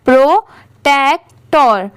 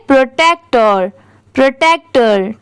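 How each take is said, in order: First: protector said slowly, syllables pro-tek-tor joined one by one; slow blended read. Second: protector said quickly in one smooth go; at normal speed. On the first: Teacher joining syllables for her students, slow and deliberate. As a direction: stretch out protector as you join its parts. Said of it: "अब इन तीनों को साथ में मिला देते हैं". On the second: Teacher reading the word at full speed for her students. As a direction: run protector together at speed. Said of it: "अब इसे साथ में स्पीड में पढ़ेंगे". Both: Shown as a demonstration.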